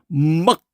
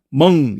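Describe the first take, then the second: First: The syllable ends in a k sound. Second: The syllable ends in an ng sound. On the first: The speaker calls it wrong. "누가 먹 이게 발음 안 해요" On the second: The speaker calls it right. "그냥 멍 이래 버려요"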